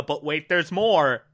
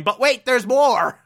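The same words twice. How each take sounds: First: Said in the usual way. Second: Louder hammed-up infomercial pitch; salesman pitch. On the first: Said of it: "again, we're going on the". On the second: Cheesy used car salesman pitching, mock and louder. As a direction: sell it like a cheesy ad. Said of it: "crappy used car salesman going".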